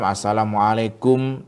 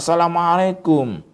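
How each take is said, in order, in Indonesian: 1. Salamnya diucapkan pelan dan lirih. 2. Salamnya diucapkan keras dan tegas. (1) "dengan suara yang lirih, dengan suara yang agak rendah" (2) "harus berani, harus tegas... Harus kuat"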